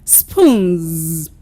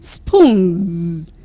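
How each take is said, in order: The two takes are said the same way.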